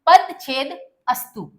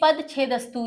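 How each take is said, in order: First: It is split into separate parts. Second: It is said as one joined word. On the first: "पद छेद करके बोलना हो" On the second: "ये पूरा एक शब्द है"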